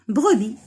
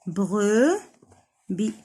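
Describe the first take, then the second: First: Said in the usual way. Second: بروبي as "bre", pause, "bi"; syllable by syllable. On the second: Shown as a demonstration. Teacher sounding out a word for children, بروبي broken in two. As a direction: slowly stretch بروبي into two pieces. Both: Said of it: "دو سيلاب".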